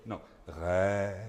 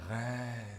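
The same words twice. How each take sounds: First: Rêve said slow and light, the E barely there; corrected rêve. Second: Rêve with a soft silent E; French rêve. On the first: Coach correcting the singer's rêve. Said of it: "but you're doing rêve". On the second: Coach shows the singer the French rêve. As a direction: say rêve with the mute E, lightly. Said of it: "That E muet". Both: Shown as a demonstration.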